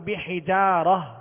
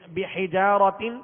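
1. لفظ کے آخر میں ہائے ساکنہ کی آواز ہے۔ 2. لفظ کے آخر میں 't' اور 'n' کی آواز ہے۔

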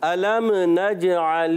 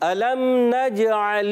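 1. لام یا میم پر ایک اضافی حرکت ہوتی ہے۔ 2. لام اور میم بغیر حرکت کے ادا کیے جاتے ہیں۔

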